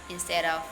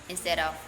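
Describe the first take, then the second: No difference in how they are said.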